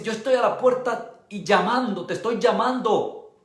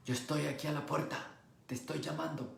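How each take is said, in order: First: Said in the usual way. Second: Much softer, tender knocking voice; Jesus quietly asking to be let in; soft gentle call. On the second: Acted. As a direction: hush it, inviting. Jesus gently calling, softer retelling.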